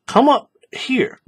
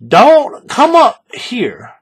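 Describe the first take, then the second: First: "Come up here" whispered, slow; correcting whisper. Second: Slow, loud, stressed "don't come up here"; warning stress. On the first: Pointing a student to the right slot, slow whisper. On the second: Showing a student the wrong slot, slow loud warning. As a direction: lean hard on "don't come up here", louder and drawn out. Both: Shown as a demonstration.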